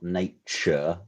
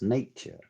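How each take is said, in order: First: The middle consonant is a 'ch' sound. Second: The middle consonant is a 'ty' sound. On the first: The speaker calls it wrong. "There's no C in there. It's not nature" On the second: The speaker calls it right. "It's nature. Like a tune"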